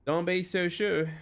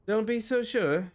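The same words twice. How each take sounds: First: Slow, slipping into a Texan drawl; botched accent turning Texan; accidental Texan accent. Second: Higher, slow attempt at Scottish; makeshift Scottish accent. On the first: Acted. Elma doubts the newcomer, in an accidental Texan accent. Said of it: "that suddenly turned way to Texan". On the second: Elma doubts the newcomer, in a put-on Scottish accent. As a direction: retake it in a rough Scottish accent. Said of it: "whatever Scottish thing I had before".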